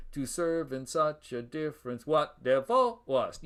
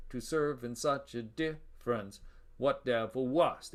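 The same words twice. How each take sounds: First: "WHAT de-VIL wast", stress landing on the wrong syllables; wrongly placed stress. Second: DIFF-rence, pause, then "what DEV-il WAST"; slow scansion, "what" unstressed and "devil" stressed on DEV; iambic after caesura. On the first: Lecturer demonstrating a misscanned line, wrong-syllable stress. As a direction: run on past "difference", punching "what" and the end of "devil". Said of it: "putting the stress on the wrong syllable". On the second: Lecturer showing students the correct scansion, iambic after pause. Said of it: "back to the iambic pattern".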